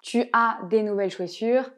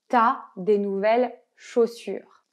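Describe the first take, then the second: First: Tu and as are both said fully. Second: The vowel of tu is dropped: t'as.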